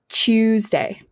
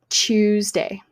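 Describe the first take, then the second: First: The word begins with a ch sound. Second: The word begins with a ch sound.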